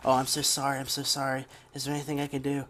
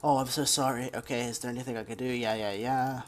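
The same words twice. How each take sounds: First: Lightly mocking a gushing apology, a bit raised; a touch of syrupy, insincere sorry; fake sympathy. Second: Sneering parody of a hollow apology; mocking fake sympathy. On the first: Coworker apologizing after making him cry, fake sympathy. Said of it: "she did that fake sympathy". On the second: Mocking the coworker's insincere apology, fake sympathy. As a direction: rattle off the sorry fast, dismissive. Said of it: "that fake sympathy bullshit".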